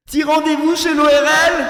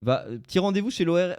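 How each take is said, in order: First: Loud and much higher shout. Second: Said in the usual way. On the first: Shown as a demonstration. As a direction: bellow it so they hear. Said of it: "t'as pas entendu. Attends". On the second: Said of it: "t'as pas entendu".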